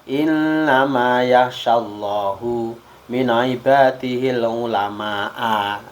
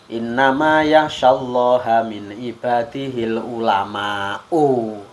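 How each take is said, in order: First: Allah ends in u; ulama ends in a. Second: Allah ends in a; ulama ends in u. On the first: God is the one who fears. The speaker calls it wrong. "dibaca rafa' lafal Allah, wanas bil ulama dan dibaca nasab kalimat ulama" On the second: The scholars are the ones who fear. The speaker calls it right. "Yang betul kan"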